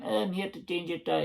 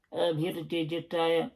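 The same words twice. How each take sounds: First: Lightly voiced Buckie mechanic again; mild north-east Scottish accent; Bucky accent. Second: Put-on a light Buckie accent for the AA guy; lightly voiced Buckie mechanic; mild north-east Scottish accent; Bucky accent. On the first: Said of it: "He's from, from Bucky". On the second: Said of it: "giving him that accent".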